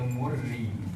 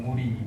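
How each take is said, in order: First: The r sound is doubled and held longer. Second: The r sound is single and short. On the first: The speaker calls it wrong. "Setengah orang dia baca Murri, ... bacaan tu salah" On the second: The speaker calls it right.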